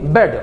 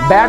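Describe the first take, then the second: First: The vowel is the 'e' sound of bed. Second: The vowel is the open 'a' sound of bad. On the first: The speaker calls it right. "इसको पढ़ेंगे बेड" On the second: The speaker calls it wrong. "बैड नहीं पढ़ेंगे"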